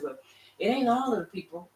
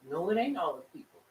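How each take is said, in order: First: Higher, protesting objection from the doubters; mock objection. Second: Said in the usual way. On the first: Preacher mimicking people who object, mock protest. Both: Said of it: "some people say".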